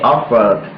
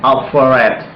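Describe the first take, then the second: First: "offered" in two syllables, off-erd; correct pronunciation. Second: "offered" in three syllables, off-er-red; wrong pronunciation. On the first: Teacher showing what you can pronounce, correctly said. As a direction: end "offered" straight on the d, no extra syllable. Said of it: "you can pronounce offer". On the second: Teacher showing what you cannot pronounce, mispronounced. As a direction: sound the ending of "offered" as a separate "red". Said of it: "you also cannot pronounce". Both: Shown as a demonstration.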